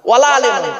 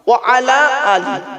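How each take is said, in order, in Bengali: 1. প্রথম শব্দগুলো মিশে যায়, আর শেষটি 'em' দিয়ে শেষ হয়। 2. শব্দগুলো আলাদা আলাদা থাকে, আর শেষটি 'i' দিয়ে শেষ হয়।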